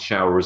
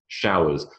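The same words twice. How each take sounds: First: It is said with an r sound before the z. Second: It is said with no r sound before the z. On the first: "if you have an American English accent, showers with a ner" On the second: "So in British English"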